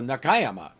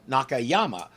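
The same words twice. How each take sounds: First: The stress is on the second syllable. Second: The stress is on the third syllable. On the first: The speaker calls it right. "put the accent on the second syllable, not the third" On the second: The speaker calls it wrong. "Most Americans would look at this and pronounce it"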